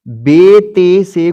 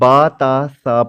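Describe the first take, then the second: First: The letter names end in an 'e' vowel. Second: The letter names end in an 'a' vowel. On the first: This is the Urdu way of naming the letters. The speaker calls it wrong. "Urdu में कैसे पढ़ते हैं जो कि अरबी के एतबार से गलत हैं" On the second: This is the Arabic way of naming the letters. The speaker calls it right. "हमने बा ता सा पढ़ना है"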